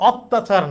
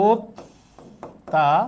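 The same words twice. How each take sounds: First: "অত্যাচার" starting with open aw, "awttachar"; wrong open vowel. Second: "অত্যাচার" very slowly as "ot... ta... char"; correct syllable-by-syllable. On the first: Teacher showing the form to avoid, open-vowel awttachar. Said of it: "অত্যাচার না". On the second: Teacher spelling out correct sound, slow separated syllables. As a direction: break "অত্যাচার" with long pauses, closed first o. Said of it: "তাহলে এটা উচ্চারণ হবে". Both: Shown as a demonstration.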